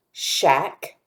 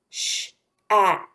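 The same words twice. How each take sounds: First: Said in the usual way. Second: Sh-ack split into sh, a, k with gaps; sounded out. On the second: Shown as a demonstration. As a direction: separate each sound of sh-ack for a learner. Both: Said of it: "listening for the R sound".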